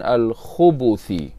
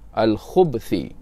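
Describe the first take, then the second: First: The b is followed by an u vowel. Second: The b is followed directly by th. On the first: The speaker calls it wrong. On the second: The speaker calls it right. "baris mati di atas huruf ba"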